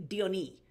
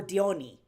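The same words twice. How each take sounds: First: Diony stressed on the final ee; imitated mispronunciation. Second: Diony stressed on the middle o; alternative pronunciation. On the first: Streamer mimics actor's Diony, imitated mispronunciation. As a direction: say Diony as dee-o-NEE. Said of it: "he kept pronouncing it as". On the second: Retold or imitated. Streamer offers the other Diony, alternative pronunciation. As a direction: say Diony as dee-OH-nee. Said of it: "And I'm like, or Diony".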